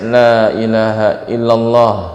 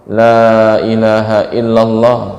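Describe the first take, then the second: Both takes have the same delivery.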